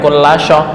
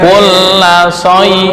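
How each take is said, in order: First: The consonant is a pressed sh sound. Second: The consonant is a light s sound. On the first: The speaker calls it wrong. "bukan kulla sya" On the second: The speaker calls it right. "kulla say bukan kulla sya"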